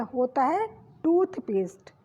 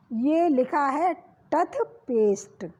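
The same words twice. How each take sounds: First: टूथपेस्ट with a long ऊ on टू; correct long vowel. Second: टथपेस्ट with a short, unstressed vowel after ट; wrong spelling read. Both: Shown as a demonstration. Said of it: "टथपेस्ट होता नहीं है".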